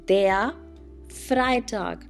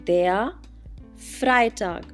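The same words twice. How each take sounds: Both takes have the same delivery.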